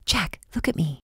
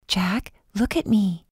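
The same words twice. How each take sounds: First: Whispered plea. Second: Slow and insistent, each word weighed; slow, firm plea. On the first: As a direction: whisper to reach him through fever. Urging feverish Jack to focus. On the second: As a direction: make him hear you, slowly. Repeats plea, firmer. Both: Acted.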